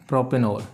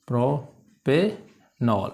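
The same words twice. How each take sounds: First: Said in the usual way. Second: propanol as three slow separated pieces, pro, पे, नॉल; syllable by syllable. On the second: Shown as a demonstration. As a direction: dictate propanol very slowly with pauses. Teacher repeats it in syllables.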